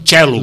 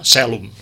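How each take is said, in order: First: It is said in the Italian Latin pronunciation. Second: It is said in the Catalan Latin pronunciation. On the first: "Els italians diuen celum" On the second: "I els catalans, que no ho fem, haurien de dir celum"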